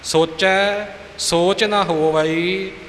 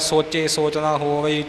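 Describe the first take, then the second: First: The first word ends in an 'ai' vowel. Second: The first word ends in a plain 'e' vowel. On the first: The speaker calls it right. "ਦੁਲਾਵਾਂ ਦਾ ਉਚਾਰਨ ਕਰਨਾ" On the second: The speaker calls it wrong. "ਆਮ ਤੌਰ 'ਤੇ ਸੁਣਿਆ ਜਾਂਦਾ"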